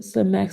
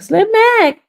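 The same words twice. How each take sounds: First: Said in the usual way. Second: Very high, loud shout of the name; excited greeting. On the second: Real, not acted. Streamer spotting a friend in chat, excited greeting. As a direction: squeal the name out in delight. Spots a known viewer, calls out.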